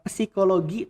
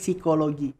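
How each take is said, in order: First: The word begins with an audible p sound. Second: The word begins with an s sound, no p. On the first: This is how the word is written. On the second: This is how people actually say it.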